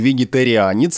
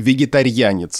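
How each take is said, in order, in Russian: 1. Середина произносится как отдельные слоги 'ri-a'. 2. Середина сливается в мягкий звук 'rya'. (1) "вот это риа произносится" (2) "с мягким знаком, как будто бы"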